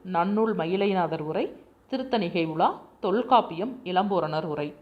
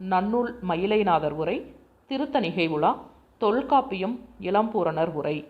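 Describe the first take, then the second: The two takes are said the same way.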